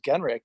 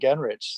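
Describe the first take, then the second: First: The name ends with a hard 'k' sound. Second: The name ends with a soft 'ch' sound. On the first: This is how the name's owner says it. The speaker calls it right. "when someone actually says Genrick" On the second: This is how most people say the name. The speaker calls it wrong. "I'm so used to people just saying Genrich"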